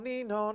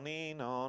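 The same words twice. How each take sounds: First: It is said at a high pitch. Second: It is said at a lower pitch, slightly slower. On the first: The vehicle is moving towards the listener. "the siren is high-pitched" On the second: The vehicle is moving away from the listener. "lower pitched, and the pulsing is slightly slower"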